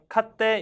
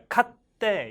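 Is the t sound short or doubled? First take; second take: short; doubled. First: The t sound is short, with no hold. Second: The t sound is held and doubled. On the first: The speaker calls it wrong. "그냥 카때 이게 아니라" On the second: The speaker calls it right. "카때 이거예요"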